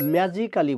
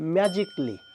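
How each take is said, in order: First: The 'al' syllable before '-ly' is pronounced. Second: The 'al' syllable before '-ly' is dropped. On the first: The speaker calls it wrong. "বলে থাকি আমরা" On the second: The speaker calls it right. "হবে ম্যাজিকলি"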